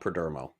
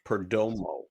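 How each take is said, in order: First: The middle syllable sounds like 'der'. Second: The middle syllable sounds like 'do'. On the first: The speaker calls it wrong. "his name is not Perdermo" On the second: The speaker calls it right. "Per do mo. Like Romo"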